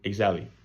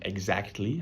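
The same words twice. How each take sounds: First: A consonant in the cluster is dropped. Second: All consonants in the cluster are pronounced. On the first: "I drop consonants in clusters" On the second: "instead of saying exactly"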